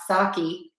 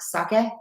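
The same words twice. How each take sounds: First: It is said with an American-style pronunciation. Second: It is said with a Japanese-style pronunciation. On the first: The speaker calls it wrong. "That's how we say it in the U S" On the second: The speaker calls it right. "I know it's more sake"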